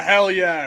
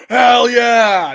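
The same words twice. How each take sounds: First: Said in the usual way. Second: Loud, high hype yell; hyped-up "hell yeah" cheer; celebratory shout. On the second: Acted. Acted celebratory cheer, pondering a replacement.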